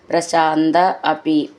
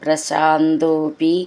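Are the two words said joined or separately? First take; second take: separately; joined. First: The two words are said separately. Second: The two words merge into one.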